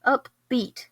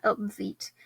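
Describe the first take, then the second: First: "Upbeat" with a firm P-B, no V; corrected pronunciation. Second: "upbeat" slurred into up-VEET; mispronounced. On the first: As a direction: say "Upbeat" carefully as up-BEET. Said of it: "Not upbeat". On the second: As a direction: say "upbeat" with V replacing B. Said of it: "up-, what the heck?". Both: Shown as a demonstration.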